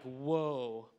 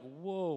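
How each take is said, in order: First: It sounds admiring and impressed. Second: It sounds mocking and put off.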